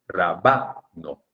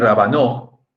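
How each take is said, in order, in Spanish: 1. El acento va en la sílaba del medio. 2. El acento va en la última sílaba. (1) "Si fuera grave sería rabano" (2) "rabanó sería si fuera aguda"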